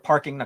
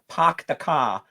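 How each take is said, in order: First: The r sounds are pronounced plainly. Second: The r sounds are dropped, with broad vowels. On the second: "New England accents where people go"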